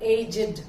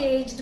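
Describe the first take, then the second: First: It is pronounced differently from the verb. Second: It is pronounced the same as the verb. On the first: It means old. "இன்னொன்னு" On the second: It means a certain number of years old. "verb aged மாதிரியே"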